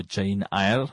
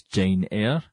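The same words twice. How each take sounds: First: Eyre said like "eye-er"; alternative pronunciation. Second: Eyre said like "air"; standard pronunciation. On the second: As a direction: say Eyre as one syllable, "air". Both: Shown as a demonstration. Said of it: "as some people pronounce it".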